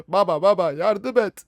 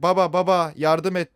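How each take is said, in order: First: Slow, put-on little kid pleading; whiny child voice. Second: Said in the usual way. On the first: Child begging his father for help, put-on whine. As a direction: beg like a scared small boy.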